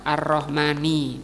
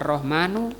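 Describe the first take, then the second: First: The word ends in the vowel i. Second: The word ends in the vowel u. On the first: The speaker calls it right. "di sini juga dibaca Ar-Rahmani" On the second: The speaker calls it wrong. "tidak boleh dibaca Ar-Rahmanu"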